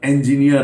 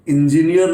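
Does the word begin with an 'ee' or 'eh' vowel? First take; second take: eh; ee. First: The word begins with an 'eh' vowel. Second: The word begins with an 'ee' vowel. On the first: The speaker calls it right. "ये ए से वो होना चाहिए" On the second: The speaker calls it wrong. "आप इंजीनियर नहीं"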